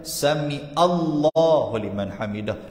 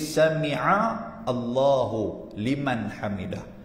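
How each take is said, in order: First: 'Sami'a' and 'Allahu' run together as one word. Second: 'Sami'a' and 'Allahu' are kept as separate words. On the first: The speaker calls it wrong. "Ada orang baca ... adalah salah" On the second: The speaker calls it right. "bacaan nak betul"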